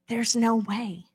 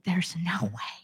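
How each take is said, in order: First: Said in the usual way. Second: Hushed, breathy "There's no way"; whispered doubt. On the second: Acted. Preacher voicing a doubter's thought, whispered.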